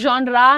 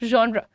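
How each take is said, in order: First: The word ends with a long 'ah' vowel. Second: The word ends on a plain 'r' sound. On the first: The speaker calls it wrong. "not ra, genre नहीं है" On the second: The speaker calls it right. "r पे रुको, बड़े आ पे नहीं जाओ"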